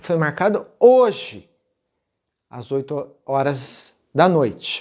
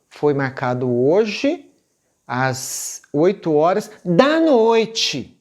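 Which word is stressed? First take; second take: hoje; oito horas. First: The emphasis falls on the word hoje. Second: The emphasis falls on the time, oito horas. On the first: It is today, not tomorrow or yesterday. "eu estou dando ênfase que o ensaio foi marcado hoje" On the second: It is at eight at night, not in the morning. "Eu podia dar ênfase no horário"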